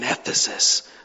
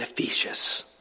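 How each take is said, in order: First: It does not sound like 'facetious'. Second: It sounds like the word 'facetious'. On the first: The speaker calls it right. "It was the church in Ephesus" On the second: The speaker calls it wrong. "not the church in Ephesus. That sounds facetious"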